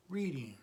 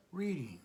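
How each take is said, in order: Both takes have the same delivery.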